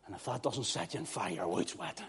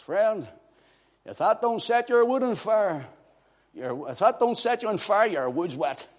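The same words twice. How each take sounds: First: Said in the usual way. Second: High-pitched TV preacher impression, settling at the end; Pastor Jennings. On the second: Preacher quoting his friend's TV broadcast, raised preacher impression. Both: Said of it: "as my friend Pastor Jennings would say".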